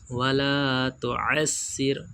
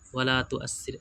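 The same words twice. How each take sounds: First: The 'ain' is produced deep from the throat. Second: The 'ain' is not produced from the throat. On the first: The speaker calls it right. "हलक में से आइन निकलेगी दोस्तों हमारी" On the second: The speaker calls it wrong. "ऐसे नहीं दोस्तों"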